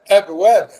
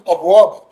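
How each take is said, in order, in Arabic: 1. الهمزة في البداية مرققة وخفيفة. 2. الهمزة في البداية مفخمة وثقيلة. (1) "كل الحروف هنا مرققه" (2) "محدش يقول ابواب ابدا"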